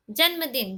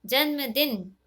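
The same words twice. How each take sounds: First: जन्मदिन read out as the misspelled form; wrong form shown. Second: जन्मदिन said clearly in the correct form; correct form shown. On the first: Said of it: "जन्मदिन ऐसे नहीं लिखते". (गलत रूप में जन्मदिन पढ़ें) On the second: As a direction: show the right जन्मदिन, clearly. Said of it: "कैसे लिखते हैं". (सही रूप में जन्मदिन, साफ़ बोलें) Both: Shown as a demonstration.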